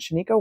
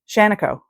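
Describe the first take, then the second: First: It is pronounced as if it were Japanese. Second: It is pronounced as a plain English place name. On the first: The speaker calls it wrong. "I want to say it like it's Japanese" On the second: The speaker calls it right. "and it's not. It's a place in Oregon"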